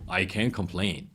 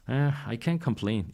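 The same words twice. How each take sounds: First: It is said in a bright, upbeat tone. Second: It is said in a glum, deflated tone. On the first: It was actually pretty good. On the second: It is not really that positive.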